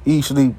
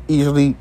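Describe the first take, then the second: No difference in how they are said.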